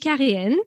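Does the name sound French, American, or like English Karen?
French. The name is said in a French way. This is the original form of the name. "It's actually Karine"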